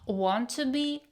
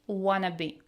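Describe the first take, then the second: First: Each word is said fully and separately. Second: The words are blended into one reduced word.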